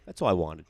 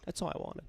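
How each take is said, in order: First: Said in the usual way. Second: Barely audible whisper. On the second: Real, not acted. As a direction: breathe it out, no voice. Repeats line, second time whispered.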